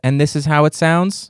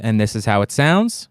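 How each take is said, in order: First: The voice effect is applied at soft strength. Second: The voice effect is applied at medium strength. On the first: "We are now on medium voice and soft" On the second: "Medium voice on a medium strength"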